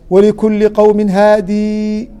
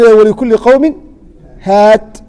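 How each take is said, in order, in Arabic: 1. تنتهي الكلمة الأخيرة بصوت ee طويل. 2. تنتهي الكلمة الأخيرة بحرف ساكن، بدون ee. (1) "بالوقف بالياء اللي هو وقف ابن كثير" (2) "لو سكونه مركا افصح"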